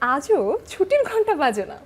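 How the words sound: It is said in a happy tone. "আনন্দ দেখিয়ে বলি"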